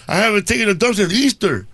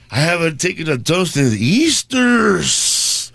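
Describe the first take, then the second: First: The line is read plainly and straight. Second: The line is read in a funny, pained way.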